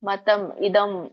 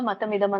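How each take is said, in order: First: The two words are said separately with a break. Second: The two words are run together without a break. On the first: "ಓದಿ ಹೇಳುವಾಗ ನೀವು ಬಿಡಿಸಿ ಹೇಳಿದ್ರೆ ನಡೆಯುತ್ತೆ" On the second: "ರಾಗವಾಗಿ ಹಾಡುವಾಗ ಮತಮಿದಂ ಅಂತ ಹೇಳ್ಬೇಕು"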